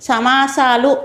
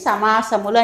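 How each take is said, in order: First: The word ends in a shortened -aalu ending. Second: The word ends in a full -amulu ending. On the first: "సమాసాలు అని కూడా అంటారు" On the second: "ఉచ్చారణ ఎలా ఉండాలంటే అండి సమాసములు అని చెప్తే చాలా బాగుంటుంది"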